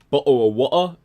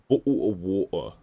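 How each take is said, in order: First: It is said in the speaker's ordinary accent. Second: It is said in a posh British accent. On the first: "Like not bottle of water" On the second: "with like a like a more posh British accent"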